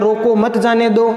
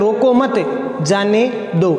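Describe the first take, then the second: First: There is a pause right after 'roko'. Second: There is a pause right after 'mat'. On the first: "रोको पर ये coma लगा दी यानी अल्प विराम लगा दिया" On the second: "अगर मत शब्द के आगे लगा दिया"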